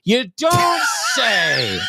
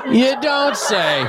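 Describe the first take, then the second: First: Sarcastic. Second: Laughing sarcastic. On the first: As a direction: drag it out, mocking disbelief. Mock reaction to headline. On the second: Repeated with a laugh. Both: Pretend.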